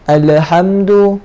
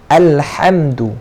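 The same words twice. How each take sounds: First: The L sound is bounced with an echoing release. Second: The L sound is held clearly without bouncing. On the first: The speaker calls it wrong. "Contoh dia melantunkan macam mana?" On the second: The speaker calls it right. "Kena jelaskan huruf lam ni"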